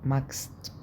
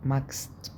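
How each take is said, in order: First: The ch is said as a hard k sound. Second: The same.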